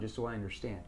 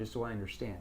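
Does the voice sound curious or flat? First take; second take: curious; curious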